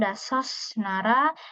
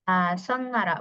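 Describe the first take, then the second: First: The first word ends with an s sound. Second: The first word ends with an n sound. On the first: The speaker calls it wrong. "bukan dasos nara" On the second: The speaker calls it right. "maka dibacanya jadi dasonara"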